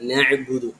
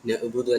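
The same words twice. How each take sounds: First: The consonant after 'na' is a throaty ayn sound. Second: The consonant after 'na' is a plain glottal stop. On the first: The speaker calls it right. "ഐനും ഹംസയും രണ്ടും തമ്മിൽ വ്യത്യാസമുണ്ട്" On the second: The speaker calls it wrong. "അല്ല"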